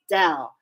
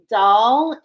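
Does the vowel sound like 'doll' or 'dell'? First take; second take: dell; doll. First: The vowel is the short 'e' of dell. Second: The vowel is the open 'o' of doll. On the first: The speaker calls it right. "the angels told me no, it's Dell" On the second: The speaker calls it wrong. "I was saying doll, and I was like, am I saying this right?"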